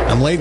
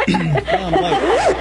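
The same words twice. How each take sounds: First: Said in the usual way. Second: Mock panicked late. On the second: Comic late entrance, said twice.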